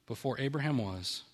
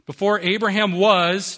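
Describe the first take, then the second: First: Said in the usual way. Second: "Before Abraham was" slow, louder, higher; emphatic declaration. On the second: Shown as a demonstration. Preacher driving home Jesus' claim to the congregation, emphatic and slow. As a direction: proclaim "Before Abraham was" slowly and forcefully.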